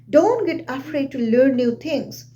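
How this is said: The voice falls at the end. The speaker calls it right. "My voice is going down, it is dropping down"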